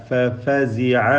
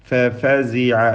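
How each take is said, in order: Both takes have the same delivery.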